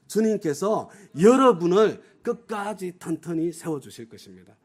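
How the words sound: The stress is on 여러분을.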